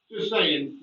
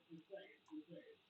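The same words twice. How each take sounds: First: Said in the usual way. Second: Breathy whispered aside, Just saying under the breath. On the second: Acted. Teasing viewers about Scouse pilots, whispered.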